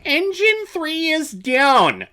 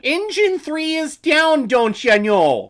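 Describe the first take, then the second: First: Shouted high and slow; loud shout. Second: Put-on high, slow Midwest Canadian accent; hammy Midwest Canadian accent, drawn out. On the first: Retold or imitated. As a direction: yell it like a crisis. Repeating movie line, loud. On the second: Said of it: "in your Midwest Canadian accent".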